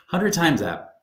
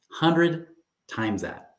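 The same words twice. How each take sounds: First: Hundred hit high and firm, normal pace; punchy restatement. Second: Drawn out slowly, hundred stretched and high, falling at the end; Hundred spoken slowly, leaning hard on the word, letting it sink in; slow dramatic reveal. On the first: Repeating the payoff for viewers, crisp and emphatic. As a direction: snap the line back with stress on Hundred. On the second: Telling viewers the big payoff, slow and dramatic. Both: Shown as a demonstration. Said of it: "I'm getting all choked up here".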